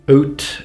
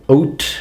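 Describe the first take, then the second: First: It is said with a regional accent. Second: It is said with a regional accent.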